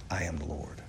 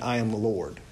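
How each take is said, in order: First: Much lower and softer, almost a hush; hushed solemn. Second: Said in the usual way. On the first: Shown as a demonstration. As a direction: drop the voice low and quiet on I am the Lord. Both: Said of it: "two things about that statement".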